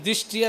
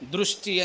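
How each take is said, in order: First: The first syllable is a plain 'di' sound. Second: The first syllable has an 'r', sounding 'dri'. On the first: The speaker calls it wrong. "కొంతమంది దిష్టి అని అంటాం" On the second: The speaker calls it right. "దృష్టి అని చెప్పాలి"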